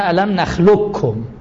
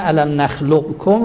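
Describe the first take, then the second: First: The q sound is merged into the k. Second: The q sound is pronounced before the k.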